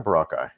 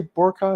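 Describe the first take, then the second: First: Boracay said as buh-RAH-kai; second-syllable stress. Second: Boracay said as BOR-kai, stress up front; first-syllable stress. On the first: Asking viewers how to say it, Boracay as buh-RAH-kai. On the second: Asking viewers how to say it, Boracay as BOR-kai. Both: Shown as a demonstration. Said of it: "do you say Boracay or Boracay".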